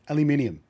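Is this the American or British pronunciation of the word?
British. The word is said with five syllables. The speaker calls it right.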